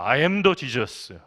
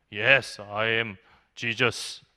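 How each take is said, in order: First: "I am the Jesus" with "the" leaned on, slow and low; stress on the. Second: Very slow, low, solemn declaration; psychiatric patient as Jesus. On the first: Second patient claims he is the true Jesus, stressing "the". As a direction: make "the" the whole point, spoken very slowly. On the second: Patient in psych ward tells student he is Jesus, slow and low. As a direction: drag out each word like a self-declared messiah. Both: Retold or imitated.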